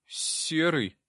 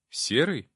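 First: Put-on higher-pitched little boy voice; timid boy. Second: Mildly surprised echo, slightly raised. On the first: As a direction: answer as a shy boy. Timid boy giving his name. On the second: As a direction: repeat the name in mild surprise. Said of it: "удивился я". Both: A narrator's reading.

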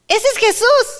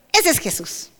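First: Much higher, rising cry of recognition; excited recognition. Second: Said in the usual way. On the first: Retold or imitated. Disciples in the boat recognizing Jesús, excited high cry. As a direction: call out with sudden joy that it is Jesus.

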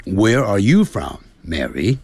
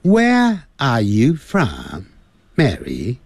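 First: American "where" and "are" with curled r; American English drill. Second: British "where" and "are", no r, slow; slow British English drill. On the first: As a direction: roll the r American style. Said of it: "那在美式英语就是". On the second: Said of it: "在英式英语". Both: Shown as a demonstration.

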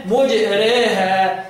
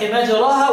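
First: مجريها drawn out slowly with the vowel leaning toward e; مجريها stretched, ra tilted toward i; imala. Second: مجراها with a full open a after ra; مجراها read open, no tilting; fath. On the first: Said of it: "يقول مجريها بالإمالة". (مجريها بالإمالة ببطء) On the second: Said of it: "بالفتح مجراها". (مجراها بالفتح) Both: Shown as a demonstration.

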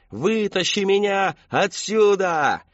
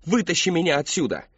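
First: Slow, higher, louder distant howl; echoing scream. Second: Loud, high desperate scream; screaming monster. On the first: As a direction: howl it so it echoes through the woods. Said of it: "Долбунец орал так, что его крики эхом". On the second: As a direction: shriek it like a haunted house actor. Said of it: "бросился на Кристофера с криком". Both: Acted.

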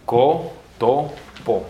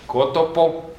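First: COTOPO very slowly, co, to, po separated; syllable by syllable. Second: Said in the usual way. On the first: Shown as a demonstration. Teacher saying it in Esperanto, very slow cotopo. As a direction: break cotopo into three long syllables. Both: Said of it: "En esperanto se dice".

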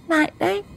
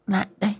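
First: Very high "lại đây" with rising đây; eager beckoning. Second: High, quiet "Lại đây" with falling đây; soft beckoning. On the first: Mistress urges Kim over, very high rising. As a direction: call him over, impatient and teasing. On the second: Mistress softly beckons Kim to her bed. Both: A narrator's reading.

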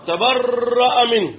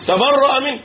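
First: "تبرأ منه" drawn out slowly and evenly; measured slow delivery of "تبرأ منه"; slow statement. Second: "تبرأ منه" punched higher and louder, stress on "تبرأ"; forceful restatement of "تبرأ منه"; emphatic repeat. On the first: Repeating the verdict for emphasis. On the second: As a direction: hit "تبرأ" hard the second time. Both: Shown as a demonstration.

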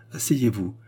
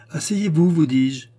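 First: Said in the usual way. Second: Much higher and louder, insistent order; insistent command. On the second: A narrator's reading. The queen orders the faltering Charny to sit, insistently. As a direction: repeat it forcefully so he obeys.

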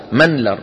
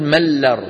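First: منلر with the n sounded clearly before the l. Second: ملر said mel-ler, with the n merged into a doubled l. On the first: Teacher to students showing the correct form, n kept clear. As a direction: pronounce منلر as men-lar, keeping the n. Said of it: "افرض أنها كلمة بوزن فعلل". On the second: Teacher to students showing the wrong, merged form. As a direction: say ملر with the n swallowed into the l. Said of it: "لا يصح أن نقول". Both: Shown as a demonstration.

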